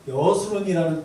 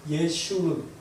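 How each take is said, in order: First: The middle syllable is said with a plain s. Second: The middle syllable is said with a sh.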